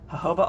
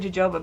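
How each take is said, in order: First: The word begins with an H sound. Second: The word begins with a J sound. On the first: The speaker calls it right. "actually the right pronunciation is jojoba oil" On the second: The speaker calls it wrong. "But I say jojoba because ... it says jojoba"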